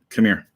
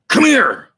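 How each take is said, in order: First: It is said plainly, without emotion. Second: It is said with strong emotion.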